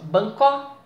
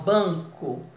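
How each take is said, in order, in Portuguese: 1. A sílaba tônica é a última. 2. A sílaba tônica é a primeira. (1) "Primeiro testando a última" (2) "ban é a sílaba tônica"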